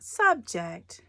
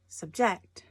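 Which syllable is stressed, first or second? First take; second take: first; second. First: The stress is on the first syllable. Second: The stress is on the second syllable. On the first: The speaker calls it wrong. "not subject" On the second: The speaker calls it right. "the emphasis is on the second syllable"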